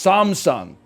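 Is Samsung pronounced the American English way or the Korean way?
Korean. It is said with a Korean pronunciation and intonation. The speaker calls it right. "the exact intonation that it is in the language that it started from"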